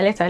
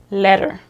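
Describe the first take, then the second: First: The t is pronounced crisply, non-American style. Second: The t is flapped, American style.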